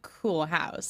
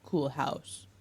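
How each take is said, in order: First: It is said sarcastically in her own voice. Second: It is said sincerely in a deep, manly voice.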